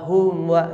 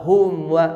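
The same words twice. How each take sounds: The two takes are said the same way.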